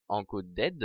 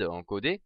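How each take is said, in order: First: English word in a heavy French accent; "encoded" said as clumsy French-accented English; bad English accent. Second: Said in the usual way. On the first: Real, not acted. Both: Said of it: "mon accent anglais est horrible".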